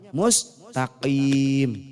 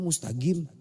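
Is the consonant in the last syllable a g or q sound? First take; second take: q; g. First: The last syllable starts with a deep q sound. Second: The last syllable starts with a g sound. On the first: "Kudunya apa?"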